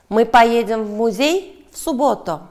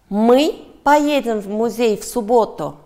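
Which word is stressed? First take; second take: музей; мы. First: The stress falls on the word 'музей'. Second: The stress falls on the word 'мы'. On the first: The question asks where they will go. "Да, в музей" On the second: The question asks who is going. "Да, мы"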